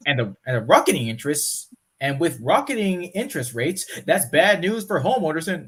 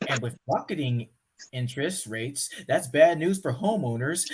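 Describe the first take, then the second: First: News anchor read. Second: Calmer news read. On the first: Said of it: "I did that wrong". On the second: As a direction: read it again more evenly. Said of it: "do over, redo". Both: Shown as a demonstration.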